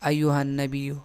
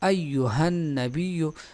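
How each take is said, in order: First: The h sound is almost completely hidden. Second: The h sound is clearly pronounced. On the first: The speaker calls it wrong. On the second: The speaker calls it right.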